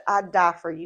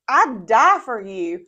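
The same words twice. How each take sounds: First: Said in the usual way. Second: Loud, drawn-out declaration; acted-out pledge, louder and slower; Peter. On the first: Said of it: "scoffing so much at the". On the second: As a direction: declare devotion slowly and emphatically. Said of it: "Peter comes in and he's like".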